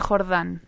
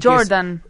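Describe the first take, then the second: First: The stress is on the last syllable. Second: The stress is on the first syllable. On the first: This is how the name is really said. The speaker calls it right. "Se dice Jordán" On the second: This is how the spelling would be read. The speaker calls it wrong. "se escribe como si uno lo leyera simplemente diría"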